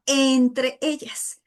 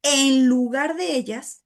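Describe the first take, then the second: First: "entre" stressed and drawn out very slowly; emphasis on entre. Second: "en lugar de ellas" said slowly, stretching "de"; wrong reading, set apart. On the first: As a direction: lean hard on "entre", spacing it out slowly. ("entre ellas" muy lento, enfatizando "entre") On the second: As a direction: read "en lugar de ellas" as the mistaken version, unhurried. ("en lugar de ellas" dicho despacio, alargando "de") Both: Shown as a demonstration. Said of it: "Es muy diferente".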